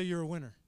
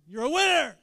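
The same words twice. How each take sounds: First: Said in the usual way. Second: Big, high rallying shout; like you mean it. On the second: Shown as a demonstration. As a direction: shout it with full conviction. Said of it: "Say it like you mean it".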